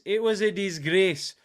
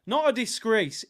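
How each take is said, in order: First: DISGRACE with a short Scottish "ay" vowel, louder; Scottish accent. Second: Said in the usual way. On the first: Shown as a demonstration. Streamer corrects himself for chat, Scottish accent. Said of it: "I'll try and do a Scottish accent".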